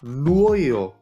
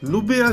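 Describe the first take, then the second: First: The name is said without a b sound. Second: The name is said with a b sound. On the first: "já bych to četl jako Nuojo" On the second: "ale našlo mi to Nubiu zet jedenáct"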